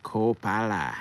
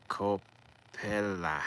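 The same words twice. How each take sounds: First: "Coppola" said loud as KO-pa-la, falling; emphatic name. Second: Slow, drawn-out "Coppola" as KO-pi-LAH; drawn-out name. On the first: Settling the director's name, loud "Coppola". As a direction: punch out "Coppola" as KO-pa-la. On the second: Testing how to say the director's name, slow "Coppola". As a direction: stretch "Coppola" out, trying the sound. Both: Shown as a demonstration. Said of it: "Is it Capello or Coppola?".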